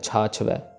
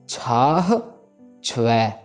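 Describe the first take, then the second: First: The first word ends without any h sound. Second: The first word ends with a clear h sound. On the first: The speaker calls it wrong. "वो हाहा miss करके" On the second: The speaker calls it right. "हो की आवाज जरूर आनी चाहिए"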